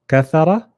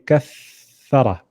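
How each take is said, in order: First: The doubled consonant is held too briefly. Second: The doubled consonant is held far too long. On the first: "First time we underdid it" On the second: "Second time we overdid it"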